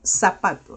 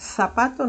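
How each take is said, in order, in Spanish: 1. La primera consonante suena como la s del inglés. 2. La primera consonante suena como la th del inglés. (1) "nosotros decimos zapato, decimos zapato, sapo" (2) "en vez de decir zapato"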